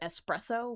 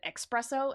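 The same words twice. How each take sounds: First: The word begins with an 'es' sound. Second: The word begins with an 'ex' sound. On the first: The speaker calls it right. "instead of" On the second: The speaker calls it wrong. "accidentally said"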